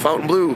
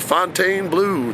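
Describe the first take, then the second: First: The first word sounds like 'fountain'. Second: The first word sounds like 'fon-ten'. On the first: This is how the speaker says it. "I pronounce it Fountain Blue" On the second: Other people say it this way. "Some people pronounce it one way"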